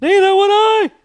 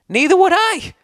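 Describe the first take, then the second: First: Very high and loud, mocking his own squeak; hammed-up high-pitched echo of his own slip; squeaky high. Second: Startled pitch jump in a heated reply; voice cracking high. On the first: Shown as a demonstration. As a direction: repeat the squeak on purpose, louder. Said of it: "I did it on a podcast". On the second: Real, not acted. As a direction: voice jumps way up high, a bit louder. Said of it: "Why did my voice go up so high?".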